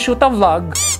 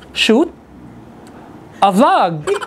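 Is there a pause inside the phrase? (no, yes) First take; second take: no; yes. First: The phrase runs together without a pause. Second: There is a pause inside the phrase. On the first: The speaker calls it wrong. "It's so wrong" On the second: The speaker calls it right. "You have to put a pause"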